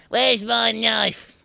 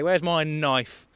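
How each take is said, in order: First: High, slow, hammed-up sinister drawl; mock villain. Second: Said in the usual way. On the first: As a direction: ham it up like a cartoon baddie. Mock menace after laugh.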